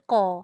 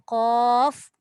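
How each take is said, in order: First: The word ends without a final f sound. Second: The word ends with an audible breathy f. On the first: The speaker calls it wrong. "Jangan baca qa" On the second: The speaker calls it right. "Mesti bunyikan angin belakang tu. Angin fa"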